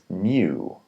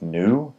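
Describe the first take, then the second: First: It is said with a y sound before the vowel. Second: It is said without a y sound before the vowel.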